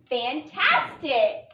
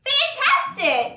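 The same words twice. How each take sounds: First: Fantastic, stretched out slowly, each part clear; slow blending. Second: Fantastic, much higher, louder and slow, delighted; cheerful praise reading. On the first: Teacher blending the syllables for the class, slowly. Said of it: "Let's start by writing fan". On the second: Teacher cheering the class on, bright and high. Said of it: "That was wonderful". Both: Shown as a demonstration.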